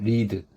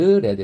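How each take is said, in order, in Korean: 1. 모음이 길어요. 'reed'처럼요. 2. 모음이 짧아요. 'red'처럼요. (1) "좀 길게 자음으로 발음합니다" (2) "read 이렇게 발음돼요. 과거, 과거분사는"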